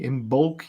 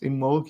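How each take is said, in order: First: The B sound is clearly pronounced. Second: The B sound is left silent. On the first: The speaker calls it wrong. "you would say" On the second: The speaker calls it right. "You do- you don't pronounce the B"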